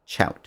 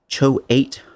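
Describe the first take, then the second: First: The vowel is not a long 'oh' sound. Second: The vowel is a long 'oh' sound. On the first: "or it might be uh" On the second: "If two vowels go walking, the first one says its name"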